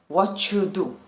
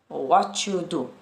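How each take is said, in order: First: The words are run together and reduced. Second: The words are run together and reduced.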